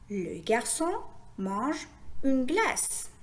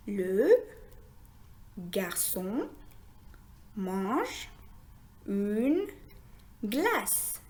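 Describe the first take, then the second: First: Slow, connected model reading of the sentence; slow phrase reading. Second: Word-by-word reading. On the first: Teacher rereading the whole sentence for learners, slowly joined. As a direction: join the words into slow little groups. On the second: Teacher reading a sentence with learners, word by word. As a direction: read it one word at a time, long pauses between. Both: Shown as a demonstration. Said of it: "Essayons maintenant de lire une phrase".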